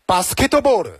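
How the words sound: It is said with a Japanese accent. "日式发音呢就是"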